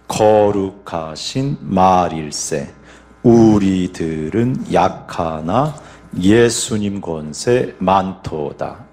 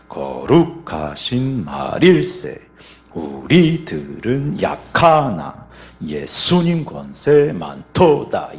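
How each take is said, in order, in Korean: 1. 강세는 첫 박에 있어요. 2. 강세는 둘째 박에 있어요. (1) "먼저 1박 강세입니다" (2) "2박의 강세를 한번 넣어볼게요"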